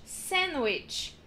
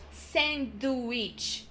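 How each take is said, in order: First: Sandwich said as sannwich; silent d. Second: Sandwich with a clear d, slowly; d sounded. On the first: Teacher showing the right sandwich. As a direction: drop the d in sandwich. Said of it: "not sandwich". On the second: Teacher showing the wrong sandwich. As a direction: say sandwich as sand-wich. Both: Shown as a demonstration.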